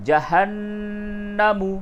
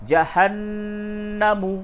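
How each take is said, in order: No difference in how they are said.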